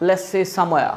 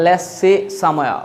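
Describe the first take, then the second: First: Said in the usual way. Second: "Let's see somewhere" stretched slowly, the s of "Let's" held; drawn-out teacher demo of "Let's see somewhere". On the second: Shown as a demonstration. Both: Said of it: "আমি যেরকম বলি আপনিও বলেন".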